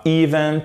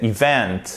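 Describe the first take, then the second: First: Event slowly as EE-vent, first syllable high; wrong event. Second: Event with light i and stressed VENT, falling; correct event. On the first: Teacher showing a second mistake, wrong event. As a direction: stretch a stressed EE in "event". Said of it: "c'est pas event". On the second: Teacher giving learners the answer, correct event. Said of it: "c'est event". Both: Shown as a demonstration.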